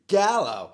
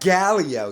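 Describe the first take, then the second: First: No extra sound comes before the final vowel. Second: An extra 'ee' sound comes before the final vowel. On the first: The speaker calls it right. "It's Gallo" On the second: The speaker calls it wrong. "It's not Gallio"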